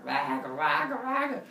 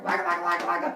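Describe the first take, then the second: First: Big monster. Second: Loud, rapid monster gibberish; little monsters. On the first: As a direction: imitate a big monster's roar. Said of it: "the big one comes out". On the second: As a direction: imitate small monsters attacking with jabber. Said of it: "And the little monsters". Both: Retold or imitated.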